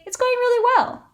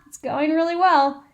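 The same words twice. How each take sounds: First: It is said in a sincere, genuine tone. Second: It is said in a sarcastic, ironic tone. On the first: The day really is going well. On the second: The day is actually going badly.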